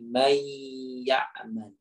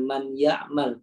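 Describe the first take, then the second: First: The n is merged into the following y. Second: The n is pronounced clearly before the y. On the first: The speaker calls it right. "Nun sukun ketemu dengan ya menjadi may ya'mal" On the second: The speaker calls it wrong. "Bacanya bukan man ya'mal"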